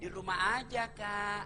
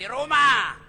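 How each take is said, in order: First: It is said in a soft, sultry voice. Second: It is said in a plain, unseductive voice.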